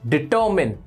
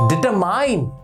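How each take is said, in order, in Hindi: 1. आखिरी syllable 'min' जैसा सुनाई देता है। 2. आखिरी सिलेबल 'mine' जैसा सुनाई देता है। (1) "इट इज डिटर्मिन" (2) "नो"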